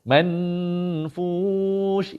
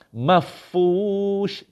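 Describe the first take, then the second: First: A full n with the tongue tip raised. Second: No n; it goes straight into a doubled f. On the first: "Kalau bunyi man, hujung lidah kena kat langit. Man. Man, itu bunyi nun" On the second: "Kalau turun masuk fa, mafush, mafush, itu fa yang bersabdu"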